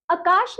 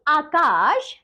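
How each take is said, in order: First: आकाश with a short first vowel, "akaash"; wrong pronunciation. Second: आकाश with a long opening "aa"; correct pronunciation. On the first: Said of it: "आपको कुछ अशुद्ध शब्द". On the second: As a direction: draw out both long vowels in आकाश. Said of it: "और शुद्ध शब्द". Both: Shown as a demonstration.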